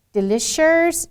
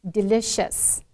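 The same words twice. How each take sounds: First: "delicious" said higher with an R at the end; R-coloured ending. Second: "delicious" ending in a clean S, no R; correct delicious. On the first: A teacher demonstrating the typical Chinese speaker's "delicious". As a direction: tack an R onto the end of "delicious". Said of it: "add a little R there". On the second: A teacher giving the correct "delicious" after the wrong one. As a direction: finish "delicious" on a plain S sound. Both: Shown as a demonstration.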